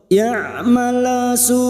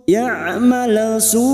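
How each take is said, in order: No difference in how they are said.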